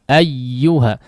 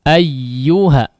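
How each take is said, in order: The two takes are said the same way.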